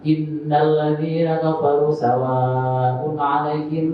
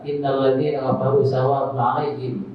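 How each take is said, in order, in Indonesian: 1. Vokal panjang dan bunyi sengau dibaca penuh panjangnya. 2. Vokal panjang dan bunyi sengau dipotong pendek. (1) "Apakah bisa cepat tapi harus memperhatikan tajwid? Bisa" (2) "itu kan tidak pakai tajwid"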